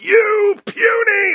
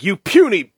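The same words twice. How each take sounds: First: It is delivered with exaggerated, cheesy drama. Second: It is delivered plainly, without much drama.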